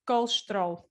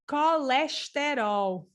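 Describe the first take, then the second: First: The unstressed vowels are reduced or dropped. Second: Every vowel is pronounced fully and clearly. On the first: This is how it is said in Portugal. "In Portugal, we say" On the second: This is how it is said in Brazil. "in Brazil, they say something like, and I'm here kind of trying to imitate their way"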